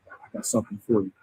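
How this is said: It is said in a menacing, threatening way. Someone is going to do harm.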